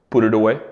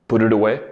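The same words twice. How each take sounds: Both takes have the same delivery.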